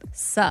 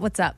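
First: The greeting is clipped to one syllable. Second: The greeting is said in full, two syllables. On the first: The speaker calls it right. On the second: The speaker calls it wrong. "No, not "What's up?""

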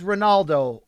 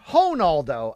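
First: The name is said without Brazilian Portuguese pronunciation. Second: The name is said with Brazilian Portuguese pronunciation. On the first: "the speaker says Ronaldo" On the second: "as they would say in Brazil"

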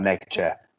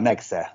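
First: The middle consonant is a 'ch' sound. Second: The middle consonant is an 's' sound. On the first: The speaker calls it wrong. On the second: The speaker calls it right.

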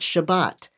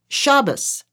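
First: It is said with the Sephardic pronunciation. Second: It is said with the Ashkenazi pronunciation. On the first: This is how most congregations say it today. "not Shabbat" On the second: This is how it was said in the home growing up. "She said Shabbos"

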